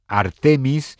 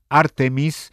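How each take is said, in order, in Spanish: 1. El acento está en la segunda sílaba. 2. El acento está en la primera sílaba. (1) "como palabra llana" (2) "y esdrújula"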